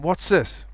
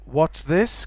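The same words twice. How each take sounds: First: The th sound is reduced to s. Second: The th sound in this is kept. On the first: "reduction of the... to z or s" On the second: "can become"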